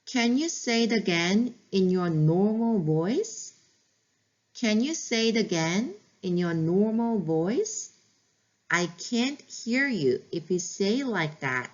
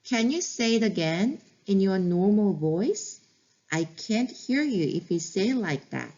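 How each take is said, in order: First: Stretched-out words, calm and even; slow teacher model, word by word; very slow model phrase. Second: Calm, stretched words, like a teacher repeating for practice; slow practice repeat. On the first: Teacher modeling a calm request to a whining child, very slow. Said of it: "어떻게 하면 상대방이 네 말을 들을 수 있는지 알려주시는 게". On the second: Teacher repeating the phrase for practice, very slow. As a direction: say it again slowly so learners can copy. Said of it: "다시 한번 연습해 볼게요". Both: Shown as a demonstration.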